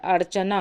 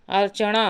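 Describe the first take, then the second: First: अर्चना with dental n; tongue on the teeth for the n of अर्चना; correct form. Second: अर्चना with retroflex n, "archaṇaa"; wrong form. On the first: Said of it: "अर्चना होता है". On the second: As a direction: curl the tongue for the n of अर्चना. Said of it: "अर्चना नहीं होता है". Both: Shown as a demonstration.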